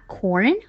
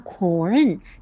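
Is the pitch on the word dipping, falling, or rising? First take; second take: rising; dipping. First: The pitch rises across the word. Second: The pitch dips down and then rises. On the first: The speaker calls it right. "或者二声发corn horn 这样也可以" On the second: The speaker calls it wrong. "但是不要发corn，这样就是拐着弯的发"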